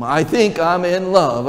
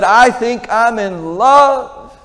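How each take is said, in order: First: Said in the usual way. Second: High, slow, dreamy lovestruck voice; lovestruck son. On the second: Acted. Young man confessing to his father he's in love, dreamy and drawn out. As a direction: stretch it out like a boy head over heels.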